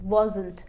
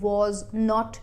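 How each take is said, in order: First: It is said as one contracted word. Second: It is said as two full words. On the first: "जिसे आप pronounce करेंगे wasn't" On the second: "negative form के लिए आपको was not use करना है"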